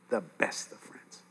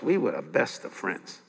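First: Hushed, slow whisper of "best of friends". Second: Said in the usual way. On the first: Real, not acted. Preacher recalling his lost best friend, echoed in a whisper. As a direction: drop to a breathless whisper of memory.

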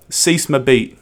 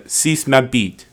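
First: "Suce ma bite" with flat English vowels; a Brit mangling "Suce ma bite"; English accent on French. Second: Slow, English-accented French for "Suce ma bite". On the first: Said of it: "here's an English person doing French". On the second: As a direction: say "Suce ma bite" like a Brit with clumsy vowels. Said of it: "Here's my English person, uh, doing French". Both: Shown as a demonstration.

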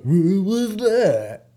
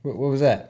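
First: High, very drawn-out bad American accent; wildly elongated mock American drawl; goofy fake American accent. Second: Said in the usual way. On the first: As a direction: mimic an English kid overdoing American, loud and stretched. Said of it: "trying to do my American accent and his really goofy English accent". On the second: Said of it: "trying to do my American accent".

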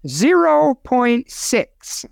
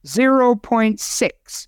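First: "Zero point six" stretched out, higher and slow; slow emphatic figure. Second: "Zero point six" said slowly and deliberately, each word spelled out; slow, repeated for clarity. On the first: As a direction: announce "Zero point six" slowly, as news. First statement of figure. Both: Real, not acted.

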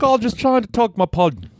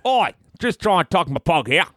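First: Put-on failed stab at an Australian accent, pitched way up; a mock Aussie voice that misses; bad Australian accent. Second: High Aussie voice starting with oi; a hammed-up Australian, pitched up; mock Australian accent. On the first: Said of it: "That wasn't a, an Australian accent". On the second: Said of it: "Australian. It was like".

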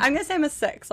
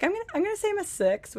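First: Fast, a bit higher rerun of his line; a lighter hint of the husband's voice; quoting husband again. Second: Quick, higher retelling of husband's joke; a light imitation of her husband, fast; quoting husband. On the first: Wife repeats husband's joke, lightly voiced and fast. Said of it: "it's funny when he says it". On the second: Wife lightly imitating her English husband's line, quick and high. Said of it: "funny the way he says it".

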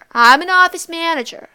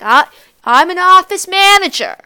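First: Loud, higher, stress on "office"; boastful aunt repeating. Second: Loud, higher, stress on "manager"; boastful aunt. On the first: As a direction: insist again, leaning on "office". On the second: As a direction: puff herself up saying "manager". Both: Retold or imitated. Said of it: "she's like".

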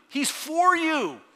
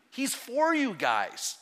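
First: Slow, loud and high on for; a full-voiced preacher's cry, stretched out; preaching shout. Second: Slow, leaning hard on for; a drawn-out, earnest promise before the big swell; he's for you, said slowly and with weight; slow, emphatic assurance. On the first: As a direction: ring it out to the back row. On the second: Acted. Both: Pastor building to a climax.

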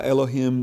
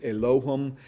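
First: Said in the usual way. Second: Elohim with the stress on LO; alternate pronunciation. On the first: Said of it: "there's obviously different ways". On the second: Shown as a demonstration. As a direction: say Elohim as eh-LO-him, middle syllable stressed. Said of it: "some people pronounce it".

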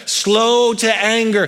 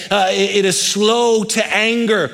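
First: "Slow to anger" drawn out slowly, SLOW stressed. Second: Said in the usual way. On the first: Shown as a demonstration. Preacher repeats the phrase for weight, slowly. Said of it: "repeated slower". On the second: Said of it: "repeated phrase".

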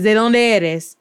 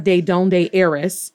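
First: "de dónde eres." flowing, stress on dónde, falling at the end; smooth native "de dónde eres." with dónde leading; correct pronunciation. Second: "de dónde eres." said slow and stiff, each syllable English-flat; clunky English-accented "de dónde eres."; wrong pronunciation. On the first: Teacher shows students the right way, flowing smoothly. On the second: Teacher shows students the wrong way, slow and stiff. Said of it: "It's not". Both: Shown as a demonstration.

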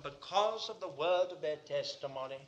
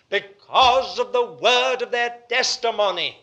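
First: Said in the usual way. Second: Loud, hammered "because of the word of their testimony"; underlined phrase. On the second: Shown as a demonstration. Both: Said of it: "I want you to underline the word".

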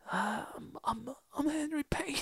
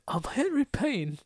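First: Much softer, raspy and higher; failed soft-spoken raspy Henry Payne. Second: Slow, higher and soft with rasp; soft raspy voice. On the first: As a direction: murmur the name shyly and rough. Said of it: "soft-spoken, raspy". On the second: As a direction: drag the name out softly. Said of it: "he's like". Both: Retold or imitated.

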